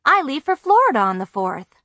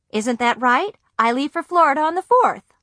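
First: Cheerful, higher and louder; eager, hopeful news; brightening. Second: Higher, louder, pleading for a yes; pressing them, getting worried; anxious insisting. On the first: Girl eagerly points out she'll be in Florida. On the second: Girl anxiously repeats her plan to silent parents. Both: A narrator's reading.

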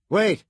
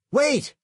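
First: Urgent. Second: Sharp high loud yell; high, loud single-word shout. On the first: California tells pilot to hold. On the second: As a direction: yell after him to stop. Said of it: "he shouted at Somerset". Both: A narrator's reading.

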